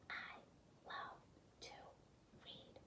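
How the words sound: It is spoken in a whisper.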